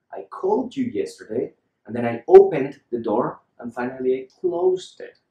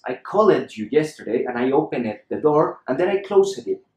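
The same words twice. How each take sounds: First: "called", "opened", "closed" with no E in the endings; E left silent. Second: "called", "opened", "closed" as call-ED, open-ED, close-ED; E wrongly pronounced. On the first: Teacher gives the corrected sentence for contrast, E silent. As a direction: run the final consonants together in "called", "opened", "closed". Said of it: "just omit the sound of the E". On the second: Teacher shows the version he dislikes, every E pronounced. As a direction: add a full "-ed" syllable to "called", "opened" and "closed". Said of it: "Look at the difference". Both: Shown as a demonstration.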